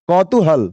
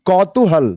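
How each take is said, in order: No difference in how they are said.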